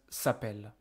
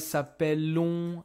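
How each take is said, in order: First: The word ends on the 'l' with no vowel. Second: The ending is sounded as a nasal 'on' vowel. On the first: The speaker calls it right. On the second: The speaker calls it wrong.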